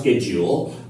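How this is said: It is said with an American pronunciation. "Mostly American people pronounce schedule"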